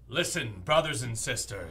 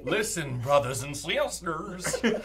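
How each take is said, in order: First: It is said in a normal speaking voice. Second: It is said in a funny put-on voice.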